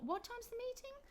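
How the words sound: The pitch rises high at the start and stays up. The speaker is asking again for something already told. "the intonation goes up"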